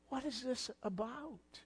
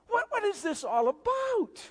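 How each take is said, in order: First: Soft, almost breathed, inward asking; hushed question. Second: Searching cry. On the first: Preacher asking the question again quietly to the congregation. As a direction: drop it to a quiet wondering. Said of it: "We have to ask the question". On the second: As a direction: cry the question out to the congregation. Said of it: "you have to ask the question". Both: Retold or imitated.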